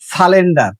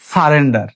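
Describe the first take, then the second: First: The word is said with an l sound: salender. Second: The word is said with an r sound: sarender. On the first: The speaker calls it wrong. "আমরা বলি সালেন্ডার" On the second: The speaker calls it right. "প্রোনাউন্সটা কি হবে?"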